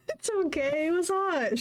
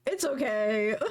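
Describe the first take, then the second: First: Higher, giggling quote; laughing. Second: Said in the usual way. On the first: Real, not acted. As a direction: giggle the line. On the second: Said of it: "laughing reread".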